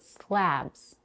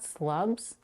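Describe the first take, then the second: First: The vowel sounds like the one in cat. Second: The vowel sounds like the one in cup. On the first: The speaker calls it right. "the vowel A, as in cat" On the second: The speaker calls it wrong. "It's not slubs"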